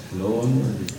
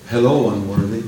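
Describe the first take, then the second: First: Softer distant echo of Hello, unworthy; echo coming back. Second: Said in the usual way. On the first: Pretend. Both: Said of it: "I hear it coming back".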